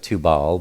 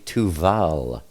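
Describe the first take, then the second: First: The middle consonant is a b sound. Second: The middle consonant is a v sound. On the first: The speaker calls it wrong. "I know it looks like Tubal" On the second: The speaker calls it right. "but it's actually Tuval"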